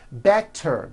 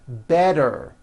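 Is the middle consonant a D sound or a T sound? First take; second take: T sound; D sound. First: The middle consonant is a crisp T. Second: The middle consonant is a soft voiced D.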